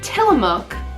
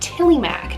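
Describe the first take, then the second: First: The word ends with a 'mook' sound. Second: The word ends with a 'mac' sound. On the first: This is the standard name of the cheese. "Tillamook is the cheese" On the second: This is the family's own way of saying it. "my grandma loves to pronounce it as Tillymac"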